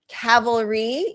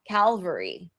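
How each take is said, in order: First: It starts with 'cav', the 'l' comes later. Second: It starts with 'cal', the 'l' comes first. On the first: "So cavalry" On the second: "you might hear people say Calvary"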